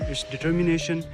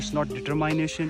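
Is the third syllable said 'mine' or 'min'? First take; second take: min; mine. First: The third syllable sounds like 'min'. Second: The third syllable sounds like 'mine'. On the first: The speaker calls it right. "It's" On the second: The speaker calls it wrong. "It's not"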